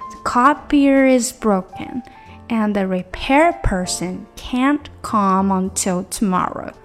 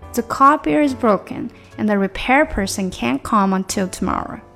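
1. 这句话说得很慢，很仔细。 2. 这句话说得很快，音连在一起。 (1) "这是慢速的" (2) "再快速就变成"

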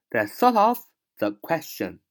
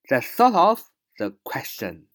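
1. 这些词快速地连在一起读，是连读的。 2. 这些词快速地连在一起读，是连读的。

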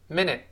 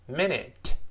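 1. 这个词读得快，结尾的t不爆破。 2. 这个词读得慢，结尾的t要爆破。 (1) "快读" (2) "慢慢读"

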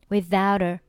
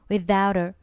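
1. t 要发音，并与后面的元音连读。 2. t 要发音，并与后面的元音连读。

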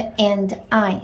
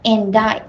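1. 这两个词是分开读的。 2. 这两个词是连读在一起的。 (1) "你读的是and I 是两个" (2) "and I 连读起来"

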